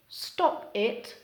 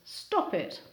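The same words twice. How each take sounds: First: The two words are said with a break. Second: The final p runs into the next vowel.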